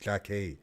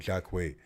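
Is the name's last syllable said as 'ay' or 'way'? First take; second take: ay; way. First: The name ends in a plain 'ay' vowel. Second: The name ends in a 'way' with a w. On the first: The speaker calls it right. "the first thing he told me" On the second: The speaker calls it wrong. "Not Jack Way"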